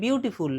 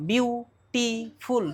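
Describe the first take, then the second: First: Said in the usual way. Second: বিউটিফুল slowly split into three beats, বিউ-টি-ফুল; syllable by syllable. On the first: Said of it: "তিনবারে বলছি". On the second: Shown as a demonstration. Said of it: "তিনবারে বলছি, তিনটে syllable".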